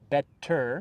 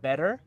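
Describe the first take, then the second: First: "better" with a crisp, fully sounded T; an overly careful "better". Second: "better" with the T as a quick American flap; a relaxed American "better"; flapped T. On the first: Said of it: "We don't say better". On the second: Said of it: "We say better". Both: Shown as a demonstration.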